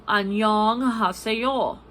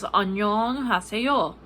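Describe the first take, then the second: First: 안녕하세요 said quickly in Korean; Korean hello. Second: 안녕하세요 said quickly again in Korean; fast native 안녕하세요; Korean hello. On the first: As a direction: rattle off 안녕하세요 like a native. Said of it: "you say". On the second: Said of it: "which is". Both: Shown as a demonstration.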